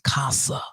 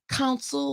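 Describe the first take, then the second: First: The word ends without any L sound. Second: The word ends with a clear L sound.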